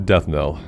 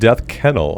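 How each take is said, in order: First: The K is silent, saying nell. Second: The K is sounded, saying kennel. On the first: The speaker calls it right. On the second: The speaker calls it wrong.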